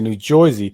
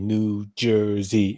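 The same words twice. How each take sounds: First: The name is said with a distorted pronunciation. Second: The name is said with the standard pronunciation. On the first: This is the habitual joking pronunciation. The speaker calls it wrong. "now I say New Jersey" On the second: This is the deliberate careful pronunciation. The speaker calls it right. "unless I consciously say New Jersey in my head"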